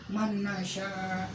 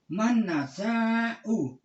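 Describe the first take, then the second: First: The last word ends without a final vowel. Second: The last word ends with an "u" vowel. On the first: The speaker calls it wrong. "hamzah ini disukun" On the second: The speaker calls it right. "nasa'u fi'il mudhari' marfu"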